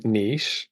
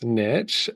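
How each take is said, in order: First: Niche as "neesh", long ee; British pronunciation. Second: Niche as "nitch", short i; American pronunciation. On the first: Brit giving the British version of a tricky word, niche as neesh. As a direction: say niche to rhyme with leash. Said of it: "which I believe you pronounce". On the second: Brit quoting how Americans pronounce it, niche as nitch. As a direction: say niche to rhyme with ditch. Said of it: "I believe you pronounce niche". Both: Shown as a demonstration.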